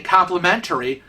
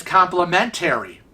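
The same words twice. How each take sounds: First: Said in the usual way. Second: "complimentary" ending in a full "-tairy"; mispronounced complimentary. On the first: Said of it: "I have a habit of saying". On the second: Shown as a demonstration. Admitting own habit to viewers, "complimentary" said with a "-tairy" ending. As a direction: say "complimentary" as compli-men-TAIR-ee. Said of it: "as complimentary".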